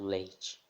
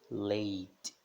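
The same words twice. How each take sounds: First: The final T hisses like a ch sound. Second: The final T is a soft plain t. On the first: The speaker calls it wrong. "Não" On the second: The speaker calls it right. "Bem suave"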